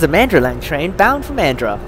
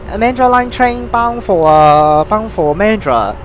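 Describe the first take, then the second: First: It is spoken in a fluent native-like accent. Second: It is spoken in a hesitant Hong Kong accent. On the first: The speaker calls it right. "a little bit more of an a native accent" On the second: The speaker calls it wrong. "That's the Hong Kong accent right there"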